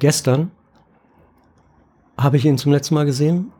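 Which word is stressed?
gestern. The stress falls on the word gestern. It answers when the person was last seen. "wann hast du denn XY zum letzten Mal gesehen?"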